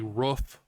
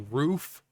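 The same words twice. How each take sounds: First: It is said in a New Jersey accent. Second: It is said in a standard accent. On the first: The speaker calls it wrong. "people that say roof" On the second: The speaker calls it right. "I say roof, like a normal person"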